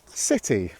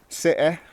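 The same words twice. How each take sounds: First: Said in Received Pronunciation with a clear t. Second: Said in a regional accent with the t dropped. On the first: "I'm going to pronounce them like receive pronunciation first" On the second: "this is how I would pronounce them"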